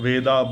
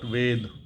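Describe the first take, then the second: First: The word ends with a final vowel sound. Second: The word ends on the consonant d. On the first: The speaker calls it wrong. "not Veda" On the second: The speaker calls it right. "I should say Yajur Ved"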